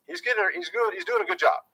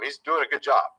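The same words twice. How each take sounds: First: "he's doing a good job" pitched up high, mocking; sarcastic falsetto praise. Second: Said in the usual way. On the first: Shown as a demonstration. Said again in a new voice.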